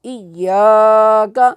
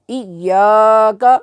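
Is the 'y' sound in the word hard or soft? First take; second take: soft; soft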